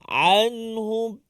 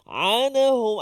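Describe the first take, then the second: First: The n closes straight into h, no vowel. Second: An extra vowel is inserted after the n. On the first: The speaker calls it right. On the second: The speaker calls it wrong. "dia boleh jadi macam hidup"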